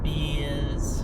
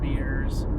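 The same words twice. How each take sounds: First: It is said in the local Boston accent. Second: It is said in a general, non-local accent. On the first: "people say" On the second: "for beers"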